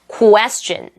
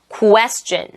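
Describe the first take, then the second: First: It starts with a rounded 'koo-a' sound. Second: It starts with a rounded 'koo-a' sound.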